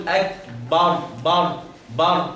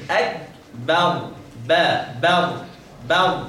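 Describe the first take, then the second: First: Slow "أكبر" with a heavy dark bar; thickened ba. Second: Slow "أكبر" with a thin fronted bar; light ba. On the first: Teacher showing the wrong heavy ba, dark vowel. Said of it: "لا تفخمها فتقول". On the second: Teacher correcting with repeats, light ba. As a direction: keep "بر" light, near ber. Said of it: "لكن". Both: Shown as a demonstration.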